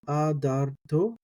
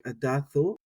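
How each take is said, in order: First: The consonant before the final vowel is t. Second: The consonant before the final vowel is th. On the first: "But I say adar, uh, aderto, adarto" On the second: "some people might say like adatho"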